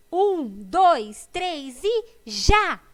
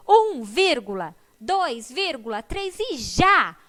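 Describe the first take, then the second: First: Loud count, slowing to a shouted go; shouted by the wolf. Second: Shouted count with commas. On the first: Acted. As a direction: yell the race start like the wolf. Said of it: "gritou o lobo". (o lobo grita a largada) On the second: Shown as a demonstration. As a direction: count read out slowly with the commas spoken, ending in a yell. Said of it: "Porque ele grita". (contagem com vírgulas faladas e grito final)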